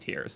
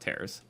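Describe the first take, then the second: First: The word rhymes with ears. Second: The word rhymes with pears. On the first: It means drops from crying. The speaker calls it right. "it is meant to be tears" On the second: It means rips. The speaker calls it wrong. "not tears"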